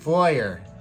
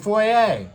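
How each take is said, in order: First: It is said in an American accent. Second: It is said in a British accent. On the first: "American pronunciation" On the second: "British pronunciation"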